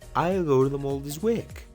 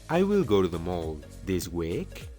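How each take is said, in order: First: 'I will' is shortened into one syllable. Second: 'I will' is said as two full words. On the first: "mejor di" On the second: "En vez de decir"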